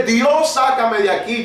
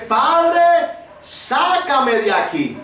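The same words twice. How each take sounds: First: Said in the usual way. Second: High cry on Padre, then slow pleading; reliving the drowning cry to the Father; retold desperate cry. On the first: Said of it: "yo no grité". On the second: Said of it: "Y yo grité".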